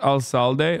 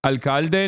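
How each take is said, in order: First: Slow "alcalde" misread as al-SAL-day; mispronunciation. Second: "Alcalde" with a hard K sound, al-KAL-de; corrected pronunciation. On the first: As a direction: say "alcalde" with an S for the second C. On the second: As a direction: say "Alcalde" with K in the middle. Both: Shown as a demonstration. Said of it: "not alcalde".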